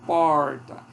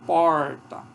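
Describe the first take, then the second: No difference in how they are said.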